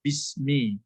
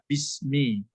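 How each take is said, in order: First: The hamza is dropped, joining the words together. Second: The hamza is dropped, joining the words together.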